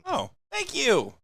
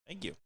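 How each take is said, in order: First: It is said with lively enthusiasm. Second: It is said flatly, without enthusiasm.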